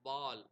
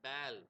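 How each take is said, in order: First: The vowel is an open ah sound. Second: The vowel is an ay sound. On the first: This is the older pronunciation. "ஆ sound வந்து ஏ சவுண்டா" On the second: This is the modern pronunciation. "பேல் அப்படின்ற மாதிரி sounds மாறுது"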